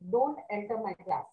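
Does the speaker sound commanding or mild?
commanding. It is said in a stern, commanding tone. It is an order. "which really sounds, I'm giving you a, a order, the first one"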